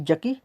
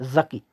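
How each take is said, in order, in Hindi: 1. शब्द 'j' की आवाज़ से शुरू होता है। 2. शब्द 'z' की आवाज़ से शुरू होता है। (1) "ना कि जकी" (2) "यहाँ पे ज़ा की आवाज़ थोड़ी निकलेगी"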